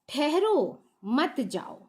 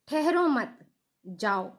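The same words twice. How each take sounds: First: A pause comes right after the first word. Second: A pause comes right after the second word. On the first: The listener is told to stay and not go. "ठहरो यानी कि क्या कह रहे हैं, रुकने के लिए कह रहे हैं" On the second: The listener is told not to stay but to go. "ठहरो मत यानी कि जाने का संकेत दे रहे हैं"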